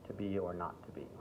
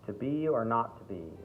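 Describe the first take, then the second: First: It is said in a more neutral standard accent. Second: It is said in a strong American accent. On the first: The speaker calls it right. "So try to make it more just standard English" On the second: The speaker calls it wrong. "if you went even further into an American accent, it might be a little too much"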